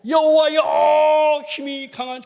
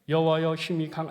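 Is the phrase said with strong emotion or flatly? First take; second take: emotional; flatly. First: It is said with strong, heartfelt emotion. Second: It is said flatly, without emotion. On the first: The speaker calls it right. "감정을 넣어서" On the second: The speaker calls it wrong. "이러지 말고"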